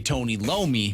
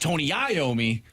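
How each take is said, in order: First: The surname begins with an L sound. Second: The surname begins with a vowel sound. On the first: The speaker calls it wrong. "which isn't his name" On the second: The speaker calls it right. "It's [name]"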